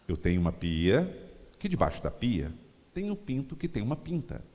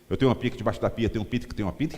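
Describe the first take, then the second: First: The sentence is spoken slowly and clearly. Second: The sentence is spoken very fast. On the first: The listeners can follow it. The speaker calls it right. "Agora vocês entenderam" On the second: The listeners cannot follow it. The speaker calls it wrong. "Vocês entenderam? Vou repetir"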